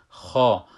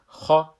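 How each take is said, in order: First: خا stretched with a long back vowel, louder; long madd. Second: خا cut short, heavy kh with a brief back vowel; short fatha. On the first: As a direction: hold the vowel of خا long and firm. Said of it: "یک مد داره". (خا با مد و کشیده) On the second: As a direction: say خا as one short syllable, no lengthening. (خا کوتاه با فتحه، بدون مد) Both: Shown as a demonstration.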